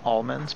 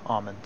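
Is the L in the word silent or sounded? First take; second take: sounded; silent. First: The L in the word is sounded. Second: The L in the word is silent. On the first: This is how the speaker's own group says it. "I think we say almonds" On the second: This is how some other people say it. "Just forget the L"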